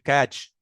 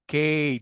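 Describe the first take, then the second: First: The vowel is short, as in badge. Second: The vowel is long, like the letter name. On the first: The speaker calls it wrong. "ما ينفعش اقول كاج" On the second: The speaker calls it right. "الفاول اللي هنا ده لونج"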